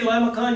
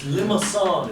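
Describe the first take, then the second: First: The c is said as a hard sound. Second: The c is said as an s sound. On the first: The speaker calls it wrong. "you could be laughed at in the dormitories" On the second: The speaker calls it right. "you pronounce it sa"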